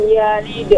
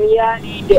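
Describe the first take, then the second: The two takes are said the same way.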